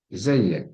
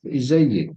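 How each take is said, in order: First: "izayyak" slowly, ending in "ak"; masculine ending. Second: "izayyak" ending in "ik"; feminine ending. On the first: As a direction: say "izayyak" with an a in the last syllable. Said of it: "izayyak itu untuk male". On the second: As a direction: say "izayyak" as "izayyik", final vowel i. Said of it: "Kalau untuk cewek". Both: Shown as a demonstration.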